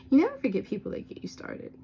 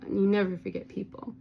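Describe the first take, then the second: First: "never" said higher and louder; stress on never. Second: Said in the usual way. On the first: Real, not acted. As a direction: lean hard on "never". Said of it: "repeated with stress on never". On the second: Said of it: "repeated for emphasis".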